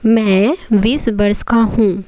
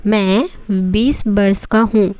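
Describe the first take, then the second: No difference in how they are said.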